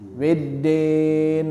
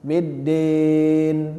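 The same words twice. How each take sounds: First: The second syllable has an 'e' vowel. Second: The second syllable has a clear 'i' vowel. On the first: The speaker calls it wrong. "Kan kadang-kadang orang mengucapkan kan biddin. Nah, jadi dia terucap e" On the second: The speaker calls it right. "harusnya i ya"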